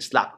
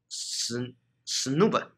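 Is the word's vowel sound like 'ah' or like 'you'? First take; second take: ah; you. First: The vowel sounds like 'ah', as in 'slab'. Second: The vowel sounds like 'you', as in 'unique'. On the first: "我这边偷懒念slab" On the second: "因为它的那个u 呢是u，就是uni 啊"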